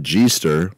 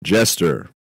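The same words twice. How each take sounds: First: "G-ster" said with a soft zh-like G, as "zhee-ster"; "G-ster" as "zheester", the wrong way on purpose; soft G pronunciation. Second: Said in the usual way. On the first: Shown as a demonstration. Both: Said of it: "It's not G-ster".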